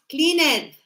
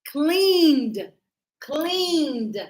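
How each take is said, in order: First: "cleaned" as "clean-ed", two syllables; wrong pronunciation. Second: "Cleaned" as one long syllable ending in D; correct pronunciation. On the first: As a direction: show the mistake "cleaned" with the -ed sounded. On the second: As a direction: model "Cleaned" stretched, no vowel before the D. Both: Shown as a demonstration. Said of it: "not cleaned".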